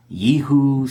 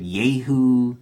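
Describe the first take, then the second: First: YEHU with a Y sound, first vowel "ee"; variant name pronunciation. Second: YEHU with a Y sound, first vowel "ay"; variant name pronunciation. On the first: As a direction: say YEHU as "YEE-hoo", higher and louder. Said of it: "Some pronounce it". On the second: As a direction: say YEHU as "YAY-hoo". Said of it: "some pronounce it". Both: Shown as a demonstration.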